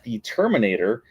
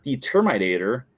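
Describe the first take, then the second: First: Said in the usual way. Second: "Terminator" said as "Termite-ator"; termite pun. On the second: Shown as a demonstration. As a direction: make the middle of "Terminator" sound like "termite". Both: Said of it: "introduced as the Termite Eater".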